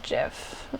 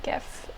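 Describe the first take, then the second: First: It starts with a soft J sound. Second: It starts with a hard G sound. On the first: "I don't say GIF" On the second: "I say GIF because every GIF is a gift"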